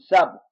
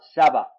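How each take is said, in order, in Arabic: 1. لا يأتي حرف علة بعد صوت الباء. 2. يأتي صوت الفتحة بعد صوت الباء. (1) "لو قرأت بالسكون سبق" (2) "تقرأ سبق بفتح الباء"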